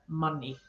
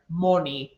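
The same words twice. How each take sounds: First: The first vowel is pronounced as an 'ah' sound. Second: The first vowel is pronounced as an 'o' sound. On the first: The speaker calls it right. "all of those should be" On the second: The speaker calls it wrong. "instead of using that, we use the O"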